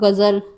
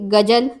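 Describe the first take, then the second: First: The middle consonant is a buzzing 'z' sound. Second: The middle consonant is a plain 'j' sound.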